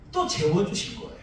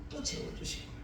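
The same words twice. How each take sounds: First: Said in the usual way. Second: 같은 말을 속삭이듯 다시; breathy whisper, no voice at all; whispered repeat. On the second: Shown as a demonstration. Whispered repeat of same line. (목소리 없이 속삭여서)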